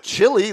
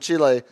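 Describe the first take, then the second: First: The word is said in plain English. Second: The word is said with a foreign accent. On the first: The speaker calls it wrong. "it's not chili like the food you eat" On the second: The speaker calls it right. "look at you with your accent"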